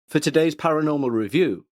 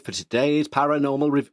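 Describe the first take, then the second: First: It is said in a BBC-style voice. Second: It is said in an odd, non-BBC put-on voice.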